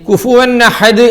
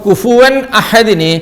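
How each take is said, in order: First: An 'n' sound links into the second word. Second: The two words are said without a linking 'n'.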